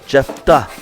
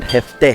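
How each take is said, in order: First: The name is said with an English pronunciation. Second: The name is said with a strong Spanish pronunciation. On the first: "In English, you take away some letters, ... and it's Jefta" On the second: "In Spanish, ... you pronounce it jefte, jefte, like strong"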